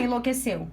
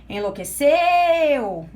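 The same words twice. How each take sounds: First: Said in the usual way. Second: "Enlouqueceu" with the final "ceu" loud and long drawn out; stress on CEU. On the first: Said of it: "Qual é a sílaba mais forte". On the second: Shown as a demonstration. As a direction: hold and swell the last syllable of "Enlouqueceu". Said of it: "É o seu". ("Enlouqueceu" com o "ceu" final forte e esticado)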